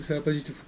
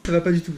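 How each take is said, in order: First: Said in the usual way. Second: Loud exasperated cry, much louder; frustrated outburst. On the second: Real, not acted. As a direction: blurt it out in dismay. Notices he forgot to film. (ça va pas du tout crié, exaspéré)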